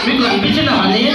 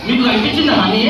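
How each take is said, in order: Both takes have the same delivery.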